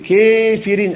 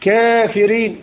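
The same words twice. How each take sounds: First: The long a leans strongly toward an e sound. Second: The long a leans slightly toward an e sound. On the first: "يقرؤون بالإمالة قولا واحدا هكذا" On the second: "يقرأ بالتقليل هكذا"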